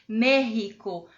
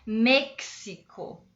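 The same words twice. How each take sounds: First: The middle consonant is a throaty h sound. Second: The middle consonant is a ks sound. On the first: "com esse som do J que eu estou ensinando para vocês" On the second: "É X, X"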